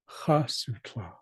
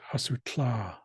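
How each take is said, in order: First: The stress is on the first syllable. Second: The stress is on the last syllable. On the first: The speaker calls it right. "the accent is actually on the first A" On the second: The speaker calls it wrong. "where the accent rises at the end"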